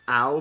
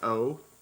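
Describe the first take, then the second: First: The vowel sounds like 'ow'. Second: The vowel sounds like 'oh'. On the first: The speaker calls it wrong. "people think it's pronounced ow" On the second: The speaker calls it right. "but it's pronounced O"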